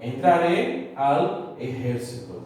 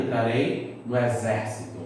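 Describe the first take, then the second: First: Slow Spanish, "ejército" stressed on "jér"; Spanish pronunciation. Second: Said in the usual way. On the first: Shown as a demonstration. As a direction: model "ejército" as "eh-HER-si-to". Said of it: "Olha aí o exemplo". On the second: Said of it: "a nossa proparoxítona".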